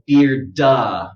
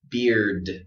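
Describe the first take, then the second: First: An extra vowel is added after the final d. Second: The word ends with a strong, clear d sound. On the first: The speaker calls it wrong. "don't overdo it. Don't go beard-da" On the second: The speaker calls it right. "we want to stay strong like that at the end"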